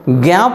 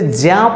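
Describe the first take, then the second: First: The syllable does not begin with a plain j. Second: The syllable begins with a plain j sound. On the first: The speaker calls it wrong. "जो अशुद्ध उच्चारण है हमारा" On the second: The speaker calls it right. "ज और इया, ज्या पढ़ना चाहिए"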